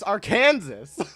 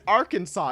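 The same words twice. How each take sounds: First: The ending sounds like the word 'Kansas'. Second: The ending does not sound like 'Kansas'. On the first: This follows the spelling. The speaker calls it right. "It's Arkansas. Like it is literally spelled Arkansas, and Kansas is another state" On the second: This is the accepted pronunciation. The speaker calls it wrong. "Why would you pronounce it Arkansas?"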